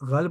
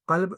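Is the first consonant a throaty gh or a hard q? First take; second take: throaty gh; hard q. First: The word begins with a throaty gh sound. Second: The word begins with a hard back q sound. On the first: "तेहरानी लहजे में ग़ैन हो जाता है" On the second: "क़ाफ़ आता है"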